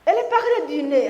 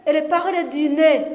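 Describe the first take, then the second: First: Talking through the nose, fast, laughing; nasal voice. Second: Said in the usual way. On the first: Shown as a demonstration. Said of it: "J'essaye, hein?". (voix nasillarde, en riant) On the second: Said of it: "Et l'autre qui dit".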